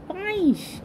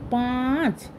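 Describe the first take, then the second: First: Put-on child botching the word পাঁইশ; wrong pronunciation পাঁইশ instead of পাঁচ; mispronounced five. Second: পাঁচ said slowly and clearly with a firm ch ending; teacher modelling পাঁচ correctly; careful model pronunciation of পাঁচ; correct five. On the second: Acted. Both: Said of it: "পাঁচ নয়".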